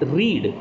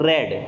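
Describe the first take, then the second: First: The word has a long 'ee' vowel. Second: The word has a short 'e' vowel. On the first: The action happens now. "रीड is a word which means to रीड out" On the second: The action happened in the past. "The second form of that word is रेड"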